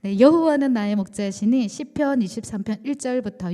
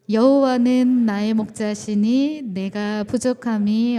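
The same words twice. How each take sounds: First: Said in the usual way. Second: Loud, slow, measured reading of 여호와는 with weight; unison scripture reading. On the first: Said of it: "함께 통독하도록 하겠습니다". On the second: Real, not acted. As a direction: lead the congregation's recitation, louder and slower. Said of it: "시작".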